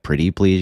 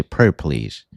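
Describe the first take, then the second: First: Said in the usual way. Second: "pre please" said short, dropping the t sounds. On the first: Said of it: "You can't be like "pretty please". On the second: Shown as a demonstration. Telling Brian how to beg, "pre please" clipped. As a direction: clip pretty down to "pre". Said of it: "You gotta say "pre please" with, like, two R's".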